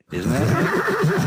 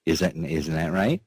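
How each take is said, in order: First: Squeaky high question. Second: Said in the usual way. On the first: Real, not acted. Asks sweetheart, squeals.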